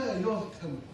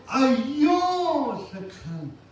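First: It is said plainly, without special emphasis. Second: It is said with strong, delighted emphasis.

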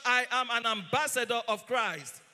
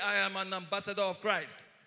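First: It is said loudly, with conviction. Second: It is said at normal volume.

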